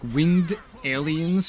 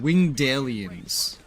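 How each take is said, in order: First: The two words are said clearly separated. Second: The D runs straight into the second word. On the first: The speaker calls it right. "instead of like winged aliens" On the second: The speaker calls it wrong. "she really pronounced the D. She kind of combined the words"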